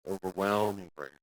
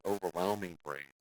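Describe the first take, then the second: First: Overwhelming drawn out slowly with weight; stress on overwhelming. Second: Said in the usual way. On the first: Shown as a demonstration.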